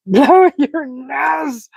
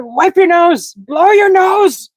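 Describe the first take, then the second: First: Very slow, drawn-out "Blow your nose."; slow repeat. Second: High, loud, slow mock command; retold shout. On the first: Retold or imitated. Streamer repeating the friend's order, slow and drawn out. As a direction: stretch every word of "Blow your nose.". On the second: Friend yelling at the sniffling streamer, mock shouted. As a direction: bark the order to blow your nose. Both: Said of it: "He said".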